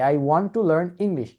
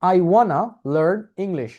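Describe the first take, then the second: First: 'Want to' is said as two full words. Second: 'Want to' is blended into one word, 'wanna'. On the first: "আপনি কিন্তু এই ইংরেজি শব্দটা সবসময় বলেন এই সেন্টেন্সটা" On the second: "ওয়ানা বলে দেখেন এটাকে এইভাবে বললাম"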